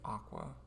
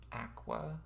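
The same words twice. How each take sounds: First: Aqua is said the widespread, common way. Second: Aqua is said the Canadian way. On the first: The speaker calls it right. "most people would say aqua" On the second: The speaker calls it wrong. "the annoying pronunciation is aqua"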